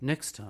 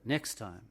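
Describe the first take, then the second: First: The voice is dropped low into the chest. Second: The voice sits high in the throat. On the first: The speaker calls it right. "That's better" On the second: The speaker calls it wrong. "You need to drop it out of your throat and into your chest a little bit"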